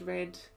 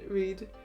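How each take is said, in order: First: The vowel is short, sounding like 'red'. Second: The vowel is long, sounding like 'reed'. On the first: "red is also a color" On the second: "same spelling, different pronunciation"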